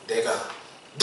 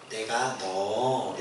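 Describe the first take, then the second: First: It is said forcefully and sharply. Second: It is said mildly and flatly.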